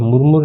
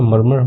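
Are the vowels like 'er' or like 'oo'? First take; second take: oo; er. First: Both vowels sound like 'oo'. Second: Both vowels sound like 'er'. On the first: The speaker calls it wrong. "मुरमुर नहीं पढ़ते इसको" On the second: The speaker calls it right. "मर्मर होता है"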